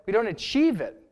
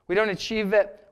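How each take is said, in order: First: "achieve" carries the weight, falling after it; stress on achieve. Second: "don't" hit hardest, the rest level; stress on don't. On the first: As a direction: land on "achieve" in "we don't achieve it". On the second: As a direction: lean on "don't" in "We don't achieve it". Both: Shown as a demonstration.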